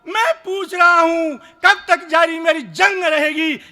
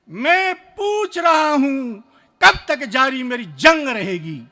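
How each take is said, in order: First: It is said in an angry tone. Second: It is said in a calm tone.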